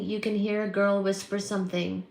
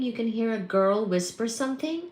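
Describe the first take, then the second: First: Said in the usual way. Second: "something" lifted in a rising question; incredulous echo, pitch climbing at "something". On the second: Real, not acted. Repeats comment as a question.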